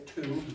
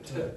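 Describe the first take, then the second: First: The word has a full long vowel. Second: The word has a reduced schwa vowel. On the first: The speaker calls it wrong. "Nobody says two" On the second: The speaker calls it right. "they'll say t"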